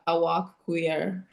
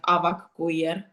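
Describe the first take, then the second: First: It is said the stretched American way. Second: It is said the firm Finnish way.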